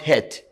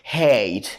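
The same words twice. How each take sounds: First: The vowel sounds like a short E. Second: The vowel sounds like a long A. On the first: The speaker calls it wrong. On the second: The speaker calls it right.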